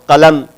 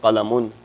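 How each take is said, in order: First: The word stops after the final m. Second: The word adds a final -un syllable. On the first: This is the form used when pausing. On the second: This is the full form with the case ending.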